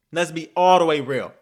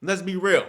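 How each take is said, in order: First: "all" punched louder in "all the way real"; stress on ALL. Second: Said in the usual way. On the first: Real, not acted. Fan insisting on honesty about the win, stress on "all". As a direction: lean hard and loud on "all". Repeat adds emphatic words.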